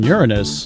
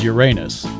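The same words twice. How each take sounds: First: It is said the usual way for the planet. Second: It is said differently from the planet's name. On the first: This is how the planet is named. "the planetary pronunciation" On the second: This is how the roadside place is named. "This is Uranus"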